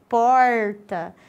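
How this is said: The R is pronounced retroflex, tongue curled back. This is how it is said in northern Paraná.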